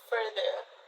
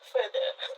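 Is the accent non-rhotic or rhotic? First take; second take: rhotic; non-rhotic. First: The r sounds are pronounced. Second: The r sounds are silent.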